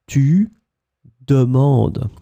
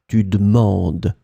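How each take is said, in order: First: The vowel after the d is clearly pronounced. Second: The vowel after the d is dropped. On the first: This is the careful form used for teaching. "I try to emphasize on it for my students" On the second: This is how native speakers talk among themselves. "the e won't be really pronounced here. It will disappear"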